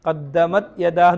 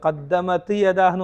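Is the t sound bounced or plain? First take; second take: plain; bounced. First: The t is held without a bounce. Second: The t gets an echoing bounce. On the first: The speaker calls it right. "കൽക്കല ചെയ്യാൻ പാടില്ല" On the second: The speaker calls it wrong. "ഓതരുത്"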